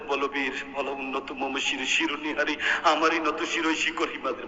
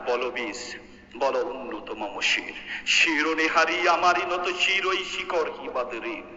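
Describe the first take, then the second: First: It is recited softly and gently, without force. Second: It is recited boldly and forcefully, with heroic energy.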